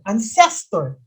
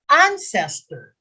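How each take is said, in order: First: The stress is on the second syllable. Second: The stress is on the first syllable. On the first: The speaker calls it wrong. "That second syllable, that, that's not the correct way of pronouncing it" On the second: The speaker calls it right. "First syllable. So you read it ancestor"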